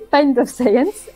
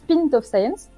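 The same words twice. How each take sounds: First: The word 'Pint' is said the English way. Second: The word 'Pint' is said the French way. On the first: The speaker calls it right. "alors qu'en fait, c'est" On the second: The speaker calls it wrong. "en France, je sais pas pourquoi tout le monde prononce"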